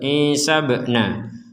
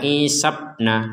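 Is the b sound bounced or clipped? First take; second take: bounced; clipped. First: The b sound is released with an echoing bounce. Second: The b sound is clipped without an echo. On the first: The speaker calls it right. "Harus ada pantulan" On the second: The speaker calls it wrong. "jangan sekedar dibaca isabna, sabna, kurang, kurang pantulan"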